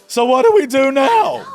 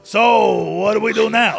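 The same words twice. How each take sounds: First: It is said in his normal voice. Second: It is said in a put-on character voice.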